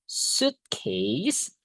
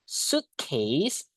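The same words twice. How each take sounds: Both takes have the same delivery.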